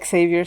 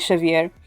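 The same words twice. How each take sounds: First: The name is pronounced the English way. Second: The name is pronounced the Portuguese way. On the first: "we don't say Xavier" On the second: "in Portuguese we say, we say Xavier"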